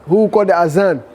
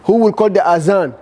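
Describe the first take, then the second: First: The middle consonant is a buzzing 'z' sound. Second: The middle consonant is a buzzing 'z' sound.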